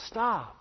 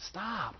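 First: The pastor commanding the congregation to stop; firm command. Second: Soft, gentle stop; the pastor softly urging the congregation; quiet plea. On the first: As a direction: Stop said firmer and fuller. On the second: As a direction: say stop almost under your breath. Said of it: "Stop. Repent". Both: Real, not acted.

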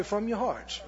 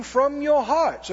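First: "From your hearts" said soft and quick; softer echo. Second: "from your hearts" slow, rising, leaned on; slow emphatic. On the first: Congregation repeats the preacher's phrase, softer. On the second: Preacher stresses the phrase before the congregation repeats it. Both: Shown as a demonstration. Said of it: "Everybody say".

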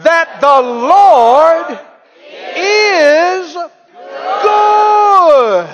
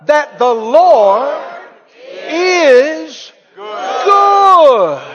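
First: Slow start, rising to a high loud shout on good; building shout. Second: Louder, higher shout of is good; preacher leads the crowd in a loud shout; shouted response. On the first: Preacher pushing congregation one more time, building shout. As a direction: drag out the Lord, then blast good. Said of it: "One more time". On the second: Preacher urging church to shout it, loud shout. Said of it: "Come on, say that out loud". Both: Acted.

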